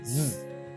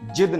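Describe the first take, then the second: First: It begins with a z sound. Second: It begins with a j sound. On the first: The speaker calls it right. "जिद ये सही है" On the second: The speaker calls it wrong. "जिद नहीं"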